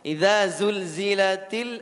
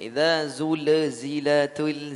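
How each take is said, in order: First: Each L sound is held without an echoing bounce. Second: Each L sound ends with an extra echoing bounce. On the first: The speaker calls it right. "Tidak ada pantulan le le le le" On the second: The speaker calls it wrong. "Terlalu banyak pantulan lam sukunnya. Ada le-nya semua"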